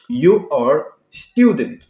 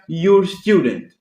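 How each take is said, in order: First: You and are are said as two full words. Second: You and are are squeezed into one syllable. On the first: "Da conjugação do verbo to be que nós já vimos anteriormente" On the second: "Na forma curta fica"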